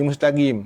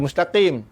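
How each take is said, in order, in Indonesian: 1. Bunyinya g yang keras sebagai gantinya. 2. Bunyinya q yang dalam, dari tenggorokan. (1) "huruf qaf tu dia berubah pada ga" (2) "Dia tak kata mustaqim"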